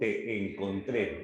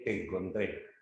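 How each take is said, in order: First: The two vowels are said separately, with a break. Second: The two vowels run together into one syllable. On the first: The speaker calls it wrong. "Yo no digo" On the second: The speaker calls it right. "yo digo"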